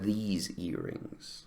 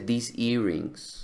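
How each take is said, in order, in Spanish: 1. La vocal en 'these' es larga. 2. La vocal en 'these' es corta. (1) "Debería ser ... Es largo" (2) "Ella dice"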